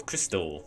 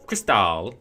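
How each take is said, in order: First: Said in the usual way. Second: Cristal with weight on the second syllable; fancy pronunciation. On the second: Shown as a demonstration. Correcting the pen's name to the fancy version, fancy pronunciation. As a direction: say Cristal louder, as kris-TAL.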